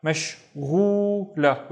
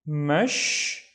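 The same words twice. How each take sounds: First: "Mashghula" slowly, the syllables brought closer together; slow whole-word model of "Mashghula"; joined syllables. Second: "Mashghula" with long pauses between mash, ghu and la; slow teaching breakdown of "Mashghula"; syllable by syllable. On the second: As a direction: split "Mashghula" into separate drawn-out syllables. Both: Shown as a demonstration. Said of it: "splitting this into syllables".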